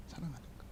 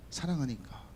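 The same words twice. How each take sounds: First: Far softer, lower, trailing off; near whisper. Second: Soft answer. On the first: Pastor repeating to the congregation that jealousy comes from love, hushed. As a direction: let the repeat fall almost silent. Repeats the answer more softly. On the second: Pastor explaining jealousy comes from love, soft and sincere. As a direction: lower and softer, sincere. Answering why he gets angry. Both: Acted.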